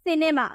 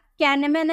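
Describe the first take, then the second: First: The word begins with an s sound. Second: The word begins with a k sound. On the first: The speaker calls it right. "आई नजर आ रहा तो हम इसे क्या pronounce करेंगे" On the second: The speaker calls it wrong. "कैनेमा नहीं"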